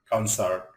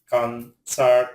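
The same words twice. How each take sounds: First: Said in the usual way. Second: "concert" in two separate, drawn-out syllables; "concert" with a gap mid-word; split syllables. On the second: Shown as a demonstration. Word split by syllable, then whole.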